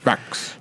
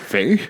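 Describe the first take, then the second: First: The name ends with a clear ks sound. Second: The name ends on a vowel with no ks. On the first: "Is it just pronounced Fax?" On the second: "Thought maybe it was the X was silent"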